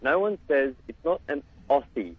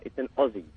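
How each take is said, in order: First: Aussie said with a hard s, OSS-ee; wrong Aussie. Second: Aussie said with a z sound, AH-zee; correct Aussie. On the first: Australian caller mocks the hosts' Aussie. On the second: Australian caller corrects hosts on saying Aussie. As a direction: say Aussie as OZ-zee, not OSS-ee. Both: Shown as a demonstration. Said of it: "you gotta get these things right".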